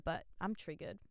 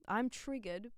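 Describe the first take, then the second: First: Said in the usual way. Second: I'm triggered, said higher with a rising end; higher, rising repeat. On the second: Shown as a demonstration. Vlogger repeating to viewers, higher and rising. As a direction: lift "I'm triggered," up and let it rise.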